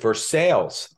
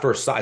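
First: It is said the local Kentucky way. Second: It is said the standard French way. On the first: This is how the town's residents say it. The speaker calls it right. "they pronounce it Versailles" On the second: This is how outsiders expect it to be said. The speaker calls it wrong. "It's not Versailles"

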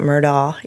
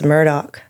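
First: The name ends with an open aw vowel. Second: The name ends with a k sound. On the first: This follows the spelling of the name. The speaker calls it wrong. "not Murdaw" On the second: This is how locals say the name. The speaker calls it right. "it's Murdoch"

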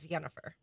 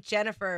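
First: The name is pronounced the Polish way. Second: The name is pronounced the usual English way.

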